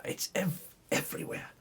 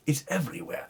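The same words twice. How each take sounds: First: Breathy, secretive whisper of the word everywhere; whispered aside to the listener. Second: Said in the usual way. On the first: Shown as a demonstration. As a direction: let the second everywhere drop to a hushed whisper. Repeats phrase as a whisper.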